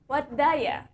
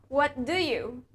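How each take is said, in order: First: Do you is blended into a shortened daya. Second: Do you is said fully as separate words.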